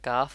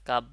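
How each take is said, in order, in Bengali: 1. এটি নিঃশ্বাসযুক্ত f দিয়ে শেষ হয়, দাঁত ঠোঁটে লাগে। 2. এটি p দিয়ে শেষ হয়, দুই ঠোঁট বন্ধ হয়। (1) "ক্যাফ বলার সময় একটু বাতাস জারি হয়েছে এবং ওই জিভ আহ, দুই দাঁত এসে আমার ঠোঁটে লেগেছে" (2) "কাপ বললেই আপনার সঠিক উচ্চারণ হবে না"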